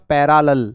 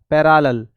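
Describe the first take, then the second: First: It begins with a clear, full 'para' sound. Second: The same.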